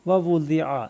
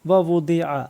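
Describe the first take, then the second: No difference in how they are said.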